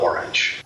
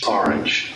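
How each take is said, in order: First: The first vowel is a rounded 'aw' sound. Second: The first vowel is an open 'ah' sound. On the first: The speaker calls it wrong. "I was calling it orange, like the fruit" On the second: The speaker calls it right. "It's A H R A N G E"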